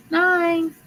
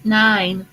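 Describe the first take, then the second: First: Nine sung up high; high sing-song. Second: Said in the usual way. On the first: Real, not acted. Host announcing the winning number, playful high call.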